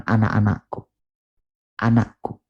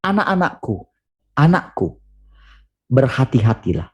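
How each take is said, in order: First: Flat and distant, without tenderness; cold, stiff call. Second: Tender fatherly call. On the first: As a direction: say it like a formal order. (panggilan datar dan dingin) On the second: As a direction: call them gently, like a loving father. (panggilan lembut seorang bapa) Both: Shown as a demonstration. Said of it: "dia tidak mengatakan".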